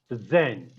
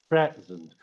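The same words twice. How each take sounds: First: The stress is on the second syllable. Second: The stress is on the first syllable. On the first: It is a verb meaning to give formally. "you are using it as a verb" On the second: It is a noun meaning a gift. "Once you stress the first part of the word"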